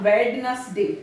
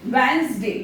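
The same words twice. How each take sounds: First: Wednesday said "Wed-nes-day", every letter sounded; slow mock-wrong Wednesday with the d pronounced. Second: Wednesday said as "Wensday" with the d silent; teacher models Wednesday as "Wensday"; correct Wednesday. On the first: Teacher shows students the common mistake, d sounded. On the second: Teacher shows students the right way, "Wensday" without d. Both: Shown as a demonstration. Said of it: "not Wednesday".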